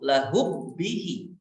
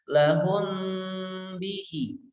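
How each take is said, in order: First: The m merges straight into the b. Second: The m is hidden with a nasal hum. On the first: The speaker calls it wrong. "Kalau dibaca idgham ... langsung masuk kepada suara ba" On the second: The speaker calls it right. "disertai dengan gunnah dan tidak bertasydid"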